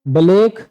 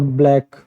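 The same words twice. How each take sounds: First: ब्लैक with a vowel slipped in, "buh-lake"; split-cluster mispronunciation. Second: Said in the usual way. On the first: Shown as a demonstration. Teacher contrasting for students, ब्लैक wrongly split as "buh-lake". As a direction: break the bl of ब्लैक into two syllables.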